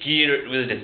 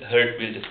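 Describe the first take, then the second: First: The name begins with a hard G sound. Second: The name begins with an H sound. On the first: This is how people here commonly say it. The speaker calls it wrong. "we say Geert Wilders" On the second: This is the name's actual pronunciation. The speaker calls it right. "the pronunciation is Hert Wilders"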